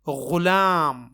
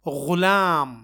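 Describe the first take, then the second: First: It starts with a throaty, fricative gh sound. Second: The same.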